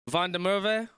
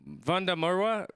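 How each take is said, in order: First: The W in Merwe sounds like a V. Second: The W in Merwe sounds like a W. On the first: The speaker calls it right. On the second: The speaker calls it wrong.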